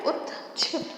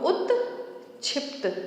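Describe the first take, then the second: First: The word is said smoothly without any break. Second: The word is split with a break between parts.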